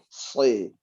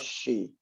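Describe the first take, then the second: First: The consonant is a sharp, thick hissing s. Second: The consonant is a broad hushing sh sound. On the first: The speaker calls it right. "Jenis udaranya tajam. Siul ya, tajam dia" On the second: The speaker calls it wrong. "Jangan sampai dia menyimpang kepada shin"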